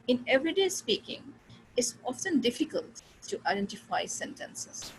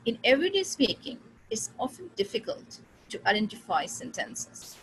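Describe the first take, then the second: First: Chunk it slowly, rising on everyday; slow thought groups again. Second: Very slow, pause after everyday speaking; slow thought groups. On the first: Teacher to class, repeating the slow demo. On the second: Teacher to class, slow demo of thought groups. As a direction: lay the sentence out chunk by chunk. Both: Shown as a demonstration. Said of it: "तीन बार मैंने इसको divide किया".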